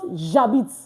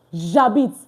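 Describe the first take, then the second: No difference in how they are said.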